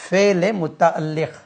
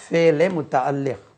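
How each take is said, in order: Both takes have the same delivery.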